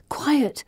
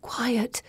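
First: Whispered thought. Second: A breathless whispered "Quiet"; whispered thought. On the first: Heroine silently calming the men, whispered. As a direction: settle them with a final hush. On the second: Heroine silently wills the men, whispered. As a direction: hush the room inside your head. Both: A narrator's reading. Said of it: "I think".

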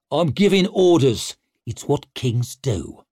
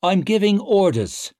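First: Commanding. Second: Mock commanding. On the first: Stour commanding. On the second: Clover mimicking king. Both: A narrator's reading.

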